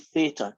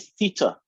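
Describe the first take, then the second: First: It is said with an American pronunciation. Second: It is said with a British pronunciation. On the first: The speaker calls it wrong. "Americans say theta" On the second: The speaker calls it right. "I say theta"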